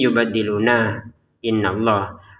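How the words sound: There is a stop after the first word. "kita boleh berhenti"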